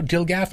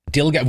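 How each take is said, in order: First: "Dilgaff" said softly with a rising, questioning end; "Dilgaff" as one word, testing it with an upward lilt; trying out the pronunciation. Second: "Dilgaff" said flat with a falling end; "Dilgaff" as one short word, the voice dropping at the end; first try at the acronym. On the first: Checking with chat how Dilgaff is said, tentative rising ask. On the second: Reading the acronym Dilgaff aloud to chat, falling and matter-of-fact. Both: Shown as a demonstration. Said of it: "Would you pronounce it like that".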